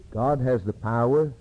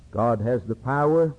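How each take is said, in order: Both takes have the same delivery.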